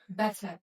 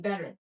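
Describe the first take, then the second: First: It is said in a British accent. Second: It is said in an American accent. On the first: "But in British accent" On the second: "in American accent"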